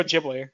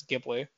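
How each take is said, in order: First: Ghibli with a soft g, "JIB-lee"; soft-g pronunciation. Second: Ghibli with a hard g, "GIB-lee"; hard-g pronunciation. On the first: Shown as a demonstration. Host correcting co-host on the studio's name, soft-g Ghibli. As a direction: say Ghibli starting with a j sound. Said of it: "No, it's, it's Studio Ghibli". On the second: Retold or imitated. Host recalling how a video reviewer says it, hard-g Ghibli. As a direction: say Ghibli starting like "give". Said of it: "Chris Stuckman says Ghibli".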